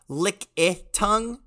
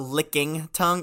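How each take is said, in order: First: The middle syllable is a plain 'i' without 'ng'. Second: The middle has an 'ng' sound, like 'licking'. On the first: The speaker calls it right. "it is Lickitung" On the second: The speaker calls it wrong. "It's not licking tongue"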